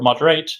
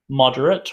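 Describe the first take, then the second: First: The stress is on the last syllable. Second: The stress is on the first syllable. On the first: It is the verb. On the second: It is the adjective.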